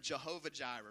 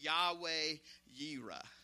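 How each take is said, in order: First: The name begins with a J sound. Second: The name begins with a Y sound. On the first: The speaker calls it wrong. "that's actually not the correct pronunciation" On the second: The speaker calls it right. "Yahweh Jireh is the more correct pronunciation"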